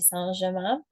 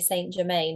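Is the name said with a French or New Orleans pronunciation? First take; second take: French; New Orleans. First: It is said the French way. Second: It is said the New Orleans way.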